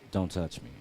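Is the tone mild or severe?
mild. It is said in a mild, gentle tone.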